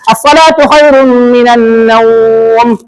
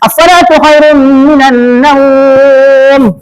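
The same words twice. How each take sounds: First: The vowel in naum is held four beats. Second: The vowel in naum is held six beats. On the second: "Enam boleh"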